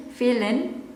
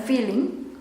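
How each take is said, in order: First: "feeling" clipped to "feelin", no g; casual slang pronunciation. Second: "feeling" ending in a full ng; standard pronunciation. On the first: Teacher repeating the slang form, "feeling" as "feelin". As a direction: end "feeling" on n instead of ng. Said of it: "slang casual jadi feeling". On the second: Teacher contrasting with slang, "feeling" with full ng. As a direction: say "feeling" with its proper ng. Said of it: "bukan feeling". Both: Shown as a demonstration.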